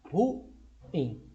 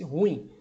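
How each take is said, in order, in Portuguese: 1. As vogais se separam em duas sílabas. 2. As vogais se juntam em uma sílaba. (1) "a pronúncia correta é ruim" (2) "pronunciam como se fosse um ditongo"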